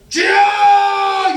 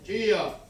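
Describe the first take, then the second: First: It is cried out with desperate urgency. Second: It is said casually, without any urgency.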